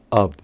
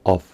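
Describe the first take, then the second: First: The word ends with a soft v-like sound. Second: The word ends with a clear f sound. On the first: The speaker calls it right. "leí la F O del medio como of" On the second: The speaker calls it wrong. "y no como of"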